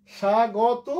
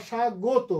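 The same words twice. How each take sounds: First: স্বাগত loud and slow, open aw after g; open-vowel variant. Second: স্বাগত drawn out with rounded o after g; closed-vowel variant. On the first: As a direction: stretch স্বাগত as sha-gaw-to. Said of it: "দুটোই শুদ্ধ". (স্বাগত, গ-এর অ খোলা রেখে) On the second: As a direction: say স্বাগত slowly as sha-go-to. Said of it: "গয়ের ওকার সংবৃত করে". (স্বাগত, সংবৃত ওকার দিয়ে টেনে) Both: Shown as a demonstration.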